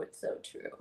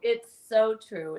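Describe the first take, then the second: First: Whispered. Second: Said in the usual way. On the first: Shown as a demonstration.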